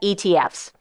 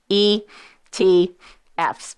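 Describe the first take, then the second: First: It is said at normal speed. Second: It is said slowly.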